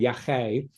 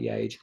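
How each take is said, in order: First: The middle consonant is an h sound. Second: The middle consonant is a g sound. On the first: This is what the drug was called. "the drug was called yahe" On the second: This follows how the writer typed it. "sounded like yage"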